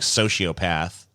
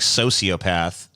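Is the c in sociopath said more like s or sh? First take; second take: sh; s. First: The c sounds more like an sh. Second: The c sounds more like a plain s. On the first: "you say more like sociopath" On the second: "I say more like sociopath"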